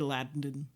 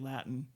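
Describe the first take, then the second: First: The t before the n is clearly pronounced. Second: The t before the n is swallowed. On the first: "You can't say Latin" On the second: "those T's, you cannot pronounce them before an N. You have to say Latin"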